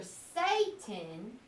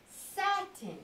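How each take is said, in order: First: Satan with a long A, like "say"; long A pronunciation. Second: Satin with short A, as in "sat"; short A pronunciation. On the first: Teacher tests a reading for pupils, Satan with long A. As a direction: stretch out Satan, first syllable SAY. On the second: Teacher offers the other reading, satin with short A. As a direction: draw out satin, first syllable SAT. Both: Shown as a demonstration. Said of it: "might think it's two different things".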